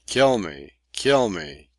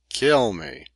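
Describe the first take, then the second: First: Mild angry taunt. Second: Kill me flung out much higher; rising shriek. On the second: Leach daring the captain at the peak of rage. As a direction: push the last kill me up into a scream. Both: A narrator's reading. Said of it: "ecstasy of impotent rage".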